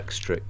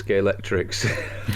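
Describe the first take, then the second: First: The word ends with a k sound. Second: The word ends with an s sound. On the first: The speaker calls it right. "It ends with a K" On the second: The speaker calls it wrong. "could you tell us how you say it"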